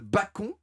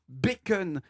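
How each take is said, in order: First: The word is said with a French pronunciation. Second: The word is said with an English-style pronunciation. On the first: This is the original old word for pork meat. "un très, très vieux mot français" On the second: This is the modern borrowed word. "on prononce bacon comme des bouffons"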